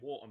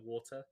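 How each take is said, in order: First: The T in the middle is dropped. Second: The T in the middle is clearly pronounced.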